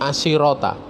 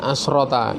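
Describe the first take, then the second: First: An i vowel comes between sh and r. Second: The sh sound is followed directly by r. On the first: "ada yang baca asirota, ya, di kasroh" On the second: "dibaca asrota"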